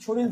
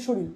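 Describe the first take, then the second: First: Said in the usual way. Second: শরীর ending in l; dissimilated pronunciation. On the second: Shown as a demonstration. Teacher confirming students' answers, শরীর said shoril. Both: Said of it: "র পরিবর্তিত হয়ে ল হয়েছে".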